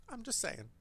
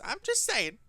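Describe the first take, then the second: First: Trailing off under breath; muttered. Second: Said in the usual way. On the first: Real, not acted. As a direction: repeat it under your breath. Repeated, fading to a mutter.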